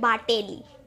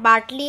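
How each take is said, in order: First: The name has a vowel between t and l. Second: The name has no vowel between t and l. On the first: This is how the speaker chooses to say it. "मैं रहूंगी बाटेली" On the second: This is how the name is written. "मेरा नाम बाटली है"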